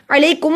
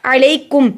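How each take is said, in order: First: Sung, stretch कुम in अलैकुम as a mistake; wrongly hummed ending. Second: अलैकुम with कुम kept short; unlengthened ending. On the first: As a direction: hum the final म of अलैकुम too long. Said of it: "अलैकुम नहीं पढ़ना क्योंकि आगे हरूफ हल्की". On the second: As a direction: close कुम promptly in अलैकुम. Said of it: "अलैकुम नहीं पढ़ना". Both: Shown as a demonstration.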